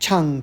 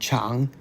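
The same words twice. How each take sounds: First: It is said in the fourth tone. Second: It is said in the third tone. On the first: "a fourth tone" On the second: "Third tone"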